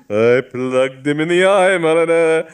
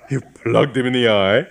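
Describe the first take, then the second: First: Louder, higher, proud insistence; proud boast. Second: Rising, astonished question; can't believe what he just heard; shocked disbelief. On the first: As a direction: hammer the boast home with relish. Bishop proudly repeats his boast. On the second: Augustine shocked, repeating. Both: Acted.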